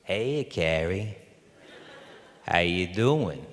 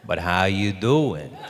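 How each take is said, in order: First: Slow, drawn-out casual greeting, lightly imitated; Rob. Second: Slow "doing", stretched out knowingly; pointed question. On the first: Director greeting his injured actor, slow lightly imitated drawl. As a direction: mimic a director's slow, feigned-casual hello. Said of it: "he's scratching his beard, and he goes". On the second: Retold or imitated. Director who knows probing his actor, slow stretched "doing". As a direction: lean slowly on "doing", falling at the end. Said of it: "And he goes".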